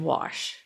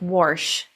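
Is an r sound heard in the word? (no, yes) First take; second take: no; yes. First: It is said without any r sound. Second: It is said with an r sound, like warsh. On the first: This is how it is said elsewhere. "instead of wash" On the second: This is how it is said in Appalachian Virginia. "we have a very R-full phonetic variant. It's like wash"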